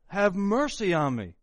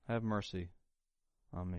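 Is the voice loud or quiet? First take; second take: loud; quiet. First: It is shouted at the top of the voice. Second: It is said quietly, without shouting. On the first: The speaker calls it right. "He would have to probably shout from the top of his voice" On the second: The speaker calls it wrong. "Do you think he said it that way?"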